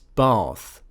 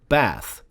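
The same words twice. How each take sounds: First: It is said in a posh RP accent. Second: It is said in a northern English accent. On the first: "only a few accents pronounce it as bath. This is the posh R P kind of thing" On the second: "the north of England, like uh, this would be pronounced as a bath"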